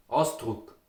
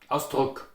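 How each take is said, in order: First: Ausdruck with softened consonants; Ausdruck, soft K and tense U; Austrian pronunciation. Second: Ausdruck with a hard final K; Ausdruck, short U and crisp K; hard consonants. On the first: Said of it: "they are more pronounced softly". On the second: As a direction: say Ausdruck in Standard German, firm consonants. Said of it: "usually pronounced very hard". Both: Shown as a demonstration.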